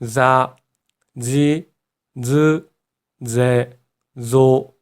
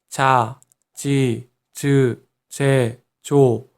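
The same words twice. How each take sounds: First: The consonants sound like a Z sound. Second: The consonants sound like a J sound. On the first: The speaker calls it right. "Z 있죠, Z. G의 느낌으로 발음을 해야 한다는 거" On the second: The speaker calls it wrong. "지읒이라고 해서 그냥 자, 지, 즈, 제, 조 이렇게 하면요. 일본인들은 치읓의 느낌이 난다고 해요"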